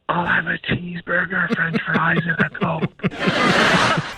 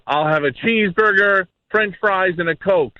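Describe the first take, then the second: First: It is said quietly. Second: It is said loudly.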